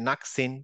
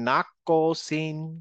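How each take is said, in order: First: The q sound stops flat without an echo. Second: The q sound bounces with a short echo. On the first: The speaker calls it wrong. "এই কলকলার উল্টা না জানতাম তাহলে বলতাম" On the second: The speaker calls it right. "নাক না বলে নাক কসিন"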